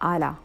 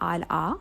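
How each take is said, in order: First: The two syllables run together smoothly. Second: The two syllables are said with a break. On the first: The speaker calls it right. "say ala" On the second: The speaker calls it wrong. "instead of saying al-a"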